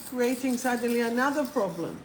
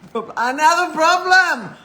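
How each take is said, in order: First: Said in the usual way. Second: Louder, higher, laughing at her own slip; laughing outburst. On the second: Real, not acted. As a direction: burst out laughing at the mistake.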